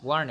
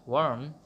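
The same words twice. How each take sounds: First: ওয়ার্ন said with a clear final n, as warn; ওয়ার্ন with the tongue-tip n at the end; corrected reading. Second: ওয়ার্ম said with a clear final m, as warm; ওয়ার্ম with a closed-lip m at the end; mistaken reading. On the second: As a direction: read ওয়ার্ম ending on m, the slip before the correction. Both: Shown as a demonstration. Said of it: "নাকি sorry, এটা হচ্ছে ওয়ার্ন".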